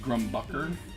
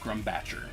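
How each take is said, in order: First: The middle consonant is a 'k' sound. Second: The middle consonant is a 'ch' sound. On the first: The speaker calls it right. "is it supposed to be Grumbucker?" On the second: The speaker calls it wrong. "I definitely keep calling this Grumbatcher"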